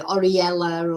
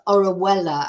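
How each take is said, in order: First: The second syllable sounds like 'ree'. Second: The second syllable sounds like 'wel'. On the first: The speaker calls it wrong. "For some reason, they say Oriella" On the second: The speaker calls it right. "But it's pronounced Orwella"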